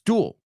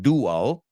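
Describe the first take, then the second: First: The word is said as one syllable. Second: The word is said as two syllables. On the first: The speaker calls it right. "It's one syllable" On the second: The speaker calls it wrong. "It's not two. It's not dual"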